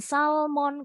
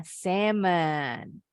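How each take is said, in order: First: SALMON with the L sounded, sal-mon; Indonesian SALMON. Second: SALMON with silent L, sam-un; English SALMON. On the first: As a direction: say SALMON the Indonesian way, clear L and full o. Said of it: "kalau bahasa Indonesianya". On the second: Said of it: "Bahasa Inggrisnya salmon". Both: Shown as a demonstration.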